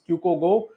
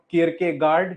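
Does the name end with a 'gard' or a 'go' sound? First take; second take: go; gard. First: The name ends with a 'go' sound. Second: The name ends with a 'gard' sound. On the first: The speaker calls it right. "he's Kyuko Go" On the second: The speaker calls it wrong. "He is not Kierkegaard"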